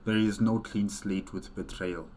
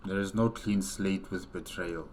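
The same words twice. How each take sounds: The two takes are said the same way.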